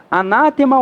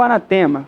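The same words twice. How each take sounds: First: Anátema stressed on NÁ. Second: Anatema stressed on TE. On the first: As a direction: punch the second syllable of anátema. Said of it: "porque a palavra é proparoxítona". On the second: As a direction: move the stress of anatema to the next-to-last syllable. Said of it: "O que que eu devo falar". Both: Shown as a demonstration.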